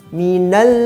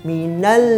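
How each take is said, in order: The two takes are said the same way.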